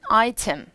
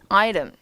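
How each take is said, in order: First: The t is pronounced as a crisp t. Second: The t is softened into a quick flap. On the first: "영국은 item 이라고 T 발음을 줄 거고" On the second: "미국식 발음은"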